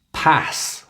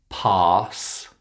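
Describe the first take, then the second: First: "pass" with a short a as in cat; wrong short a. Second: "Pass" said pahss, long vowel. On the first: Teacher imitates students' mistake, short a in "pass". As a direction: say "pass" with a front, cat-like vowel. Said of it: "We don't pronounce those words in that way". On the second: Teacher models word for practice, long ah in "Pass". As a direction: stretch "Pass" with an open ah. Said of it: "It's the long ah sound". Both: Shown as a demonstration.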